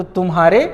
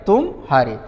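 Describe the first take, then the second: First: तुम्हारे in one unbroken piece; no gap between म and ह in तुम्हारे; joined as one word. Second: तुम, clear pause, lower हारे; two separate words. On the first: Teacher comparing two junctures, first तुम्हारे run together. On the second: Teacher comparing two junctures, then तुम हारे held apart. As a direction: break after तुम before saying हारे. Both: Shown as a demonstration. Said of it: "विराम अलग-अलग ले रहे हैं".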